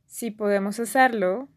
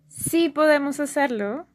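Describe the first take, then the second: First: The first word is said without stress. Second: The first word carries a strong stress. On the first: It states a condition for doing it. "sí means if, like the conditional" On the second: It confirms that we can do it. "sí means yes, like I'm doing like a confirmation"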